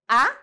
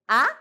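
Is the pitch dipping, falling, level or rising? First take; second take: rising; rising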